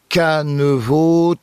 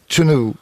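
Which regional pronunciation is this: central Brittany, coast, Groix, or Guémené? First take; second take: coast; Groix. First: Three syllables starting with k and ending in o. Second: Three syllables starting with ch and ending in u. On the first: "Sur la côte ici, on entendra un canevo" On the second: "Et à Groix"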